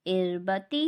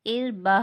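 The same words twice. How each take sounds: First: इरबती with the final ta pronounced "ti"; continuing form with ta. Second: इरबा with ta turned into h, "irbah"; stop form with ha. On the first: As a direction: finish इरबती on a clear "tee". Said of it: "आयत करने की सूरत में इसे ता नहीं पढ़ेंगे". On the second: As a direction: finish इरबा on a breathed h. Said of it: "हा पढ़ेंगे". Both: Shown as a demonstration.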